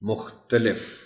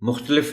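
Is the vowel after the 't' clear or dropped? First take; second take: clear; dropped. First: The vowel after the 't' is clearly pronounced. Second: The vowel after the 't' is dropped. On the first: The speaker calls it right. "ते पर ज़बर को नुमाया करके पढ़ना पड़ता है" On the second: The speaker calls it wrong. "मुख्तलिफ नहीं"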